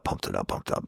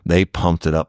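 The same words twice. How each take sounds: First: Breathy whispered repeat, trailing away; mocking whisper echoing the hype. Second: Said in the usual way. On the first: Shown as a demonstration. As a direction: let the repeat fade to a whisper. Repeating a phrase, fading.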